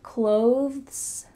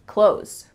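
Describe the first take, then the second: First: The th sound is clearly pronounced before the s. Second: The th sound is dropped, like close. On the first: "they might add a T H sound" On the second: "when we're speaking quickly, it just sounds like close"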